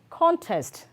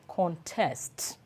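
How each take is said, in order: First: The stress is on the first syllable. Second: The stress is on the second syllable. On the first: It names a thing. "the noun is always stressed on the first syllable" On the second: It names an action. "the verb is stressed on the second syllable"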